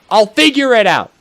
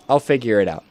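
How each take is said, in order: First: Higher, louder upbeat burst. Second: Said in the usual way. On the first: Shown as a demonstration. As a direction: shout it out cheerfully.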